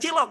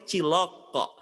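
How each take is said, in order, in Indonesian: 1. Huruf k di akhir berhenti datar tanpa gema. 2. Huruf k di akhir memantul dengan lepasan yang bergema. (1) "Bukan cilok" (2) "tapi cilok kok"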